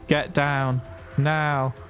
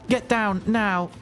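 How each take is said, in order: First: It is said with less excitement. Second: It is shouted with too much excitement.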